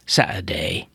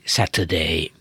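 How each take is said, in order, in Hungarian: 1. A t-t hangszalagzár helyettesíti. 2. A t-t tiszta t-ként ejtik ki. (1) "nagyon sokan így mondják" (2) "ami hát mondjuk a művelt kiejtés lenne"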